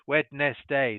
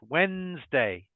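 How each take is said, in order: First: The word is said with more than two syllables. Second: The word is said with only two syllables. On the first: The speaker calls it wrong. "they think it's multiple syllables" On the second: The speaker calls it right. "No, two syllables"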